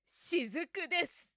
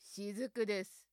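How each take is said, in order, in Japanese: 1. 強くて力強い声で言っています。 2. 威圧的で悪役らしい声で言っています。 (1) "怪力女で" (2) "悪役っぽく"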